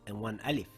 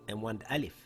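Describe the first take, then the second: No difference in how they are said.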